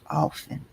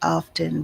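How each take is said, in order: First: The T sound in the middle is silent. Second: The T sound in the middle is pronounced. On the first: This is how the speaker grew up saying it. "I grew up saying often. A silent T" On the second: This is how some other people say it. "Some people say often"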